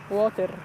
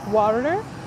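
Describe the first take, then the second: First: It is said in an Egyptian accent. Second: It is said in a Southwestern American accent. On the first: "I can tell you in Egypt it would be water" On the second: "Maybe in the U S it's in Southwest it will be water"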